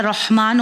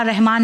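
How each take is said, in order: First: रहमान said rohman, with a full heavy र and rounded o. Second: रहमान said rehman, with a light thin र and open e; wrong thin r. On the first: Teacher correcting parents' reading, रहमान as rohman with a heavy र. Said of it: "हम normal Rahima कहते हैं". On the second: Teacher showing parents the common mistake, रहमान as rehman with a thin र. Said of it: "अल्लाह रहमान नहीं होता है". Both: Shown as a demonstration.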